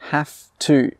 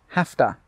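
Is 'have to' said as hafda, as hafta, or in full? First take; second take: in full; hafta. First: Both words are said fully and separately. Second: It blends into one word with a t sound.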